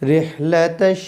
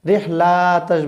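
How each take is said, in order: First: The 'la' syllable is kept short. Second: The 'la' syllable is stretched long. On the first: The speaker calls it right. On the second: The speaker calls it wrong.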